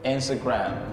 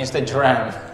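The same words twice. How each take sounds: First: The g is hard, as in 'go'. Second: The g sounds like a j. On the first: The speaker calls it right. "Instagram pakai G" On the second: The speaker calls it wrong. "Bukan Instagram"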